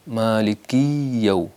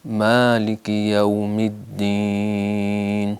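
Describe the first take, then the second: First: مالکی یو with the کاف and یا run together into a doubled y; wrong pronunciation. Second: مالک یوم الدین recited very slowly in a chanted style; careful tajweed chant; slow recitation. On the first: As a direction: show the mistake of joining the words. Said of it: "کاف اور یا کو ملا کر یہاں شد آنے کا خطرہ ہے". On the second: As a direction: draw the verse out for students. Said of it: "یہاں شد آنے کا خطرہ ہے". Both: Shown as a demonstration.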